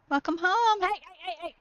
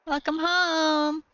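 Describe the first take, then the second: First: Higher, bright sing-song greeting; excited welcome. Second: Slow, higher, drawn-out croon; cooed welcome. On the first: Greeting her dog at the door, high excited welcome. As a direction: gush at the dog coming in. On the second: Crooning a welcome to her dog, slow and higher. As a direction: stretch out home lovingly. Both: Real, not acted.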